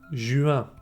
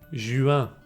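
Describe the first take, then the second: Both takes have the same delivery.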